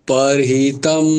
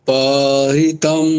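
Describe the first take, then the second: No difference in how they are said.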